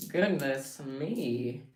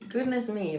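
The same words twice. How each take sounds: First: Goodness stretched out slowly; slow, prim pearl-clutching goodness; slow drawn-out dismay. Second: Mock shocked. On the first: Acted. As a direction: draw out goodness in mock dismay. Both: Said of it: "Let me clutch my pearls".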